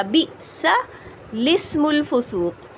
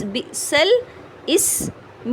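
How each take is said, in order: First: Slow chanted بِئْسَ الاسم الفسوق, الاسم read as لِسْم; sung, recite it smoothly, hamza dropped; sung, Quranic recitation. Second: بِئْسَ الاسم read very slowly, syllable by syllable. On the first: Sung, teacher reciting the correct reading for students, slow. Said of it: "کس طرح پڑھا جائے گا". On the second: Teacher spelling the phrase out for students, very slow. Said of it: "میم لام پیش مل". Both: Shown as a demonstration.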